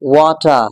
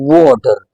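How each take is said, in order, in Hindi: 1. British accent, silent r और crisp t के साथ। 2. अमेरिकन एक्सेंट, स्ट्रॉन्ग r और सॉफ्ट d के साथ। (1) "it's generally not pronounced in British English" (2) "American English में हम इसको बोलेंगे वाटर"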